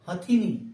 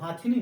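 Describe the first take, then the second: First: The first vowel is short. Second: The first vowel is long. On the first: The speaker calls it right. "बल्कि क्या होता है" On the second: The speaker calls it wrong. "हाथिनी नहीं होता है"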